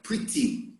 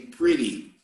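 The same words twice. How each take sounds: First: The middle T sounds like a clear T. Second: The middle T sounds like a quick R. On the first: "In England and probably in Malta too, they pronounce it like a T" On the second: "the Americans, they tend to pronounce the letter T like R"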